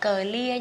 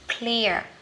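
First: The opening consonants are split apart. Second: The opening consonants are blended together. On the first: The speaker calls it wrong. "Nhưng mà mình không đọc là clear nha các bạn" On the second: The speaker calls it right. "hai phụ âm trở lên thì mình đọc liền ha"

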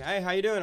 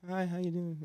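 First: It is said confidently, with self-assurance. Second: It is said timidly, without confidence.

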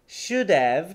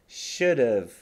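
First: The word have keeps its full vowel. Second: The word have has a weak, reduced vowel. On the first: The speaker calls it wrong. "should have ってあんまり言わなくて" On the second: The speaker calls it right. "should have と言います。日本語のあとうの間ぐらいの母音なんですね。"

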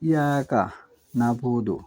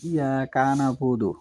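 First: There is a break between ka and na. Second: The syllables ka and na run together. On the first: The speaker calls it right. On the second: The speaker calls it wrong.

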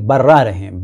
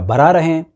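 First: The r sound in the first word is doubled. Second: The r sound in the first word is short. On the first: The speaker calls it right. "अब यहाँ पर गो की तजदीद नहीं है।" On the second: The speaker calls it wrong. "नहीं"

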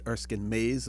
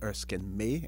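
First: The surname ends with an s sound. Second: The surname ends without an s sound. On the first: The speaker calls it wrong. "Some people pronounce it Erskine Mays" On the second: The speaker calls it right. "but I believe it is Erskine May, M-A-Y"

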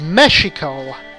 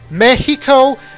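First: The X is said as an SH sound. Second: The X is said as an H sound. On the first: This is the original form of the name. "The original word was Mexico" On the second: This is how the country's people say it today. "giving an H sound to the X"

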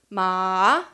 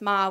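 First: Ma is said with the tone meaning horse. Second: Ma is said plainly, as the question word. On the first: The word means horse. "would mean horse" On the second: The word marks a question. "just ma would be a question word"

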